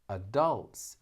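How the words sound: It is said with the American stress pattern. "Adults is actually American, American English"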